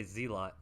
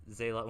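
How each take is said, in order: First: Zealot said ZEE-lot, with a long "ee"; childhood zee-lot pronunciation. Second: Zealot said ZAY-lot, with an "ay"; zay-lot pronunciation. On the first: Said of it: "When I was a kid, I used to say". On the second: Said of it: "you can pronounce Ze". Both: Shown as a demonstration.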